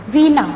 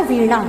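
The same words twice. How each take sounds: First: वीणा said with a dental n; wrong pronunciation. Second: वीणा said with a retroflex ण; correct pronunciation. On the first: Teacher to students, showing the wrong dental n in वीणा. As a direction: show वीणा with a plain na sound. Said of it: "वीणा गलत है". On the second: Teacher to students, modelling retroflex ण in वीणा. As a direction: say वीणा with the tongue curled back on ण. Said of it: "इसका शुद्ध रूप होता है वीणा". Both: Shown as a demonstration.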